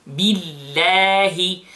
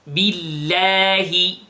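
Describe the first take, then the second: No difference in how they are said.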